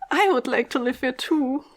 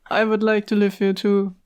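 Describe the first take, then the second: First: It is said in a lively, expressive voice. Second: It is said in a flat, bored monotone.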